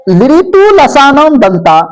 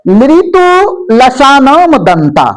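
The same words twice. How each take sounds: First: A little slower than normal talk; plain teacher restating the rule; slightly slow repeat. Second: Very slow, syllable by syllable; slow sutra recitation. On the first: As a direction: repeat लृतु लसानम दंता at an easier, flowing pace. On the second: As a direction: spell out लृतु लसानम दंता slowly, each syllable apart. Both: Shown as a demonstration. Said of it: "अब चौथा सूत्र आइए".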